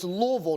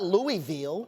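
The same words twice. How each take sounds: First: The name is said in the speaker's own pronunciation. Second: The name is said mimicking another person's pronunciation. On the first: This is how the name should be said. The speaker calls it right. "say it the correct way. It's Louisville" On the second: This is how someone else said the name. The speaker calls it wrong. "not Louisville"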